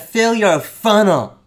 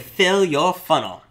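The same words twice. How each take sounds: First: It is said in a pushy, salesy tone. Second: It is said in a plain, neutral tone.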